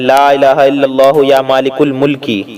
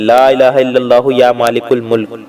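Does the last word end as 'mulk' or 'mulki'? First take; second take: mulki; mulk. First: The last word ends with an added 'i' vowel. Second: The last word ends abruptly on the 'k'. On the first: The phrase runs on into the next repetition. "आप जब मिलाकर पढ़ेंगे लगातार तो आपको ऐसे पढ़ना है" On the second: The reader stops after this phrase. "लेकिन जहां ठहरे वहां ऐसे पढ़े"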